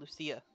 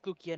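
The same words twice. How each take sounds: First: The c is said as a soft S sound. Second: The c is said as a hard K sound. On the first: The speaker calls it wrong. "not Lucia" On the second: The speaker calls it right. "Because it's based off the Latin pronunciation, where the C's are basically K's"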